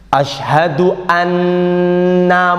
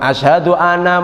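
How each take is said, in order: First: The nasal n in anna is held long. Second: The nasal n in anna is cut short. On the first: The speaker calls it right. "gunnahnya jelas" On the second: The speaker calls it wrong.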